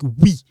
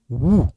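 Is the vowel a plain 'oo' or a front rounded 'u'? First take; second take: front u; plain oo. First: The vowel is a front rounded 'u' sound. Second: The vowel is a back rounded 'oo' sound. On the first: This is how the letter sounds in French. "But in French, it sound like oui" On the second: This is how the letter sounds in Lingala. "This one sound woo"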